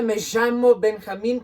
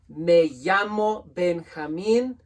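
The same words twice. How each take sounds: First: The 'll' sounds like a strong sh. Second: The 'll' sounds like an English y. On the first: "in Argentina, it's even more pronounced and strong" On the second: "Two L's make a Y sound in Spanish"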